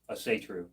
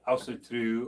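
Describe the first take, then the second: First: It is said in an Americanized way. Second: It is said in a Norse-style way. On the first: It is the way people say it in America. The speaker calls it wrong. "I think that's just Americanized" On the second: It follows the word's original roots. The speaker calls it right. "People that I respect that are not in this country ... a little bit closer to the root"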